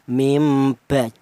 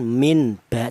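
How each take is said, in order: First: The n sound before ba becomes m. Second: The n sound before ba stays n. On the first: The speaker calls it right. "bukan min ba tapi mim, diganti huruf mim" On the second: The speaker calls it wrong. "bukan min ba"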